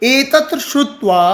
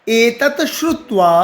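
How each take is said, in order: Both takes have the same delivery.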